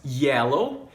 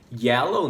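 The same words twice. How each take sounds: First: "Yellow" with a clear y onset; "Yellow" rising; model pronunciation. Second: "yellow" again with the y onset; "yellow" rising; the y at the start of "yellow"; repeat model. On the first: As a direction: stress the y in "Yellow". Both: Shown as a demonstration. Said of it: "Olha só essas palavras".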